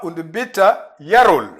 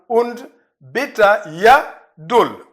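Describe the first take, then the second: First: It is said quickly, the d becoming r. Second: It is said slowly, with a clear d sound. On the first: "Mais rapidement" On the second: "si je vais lentement"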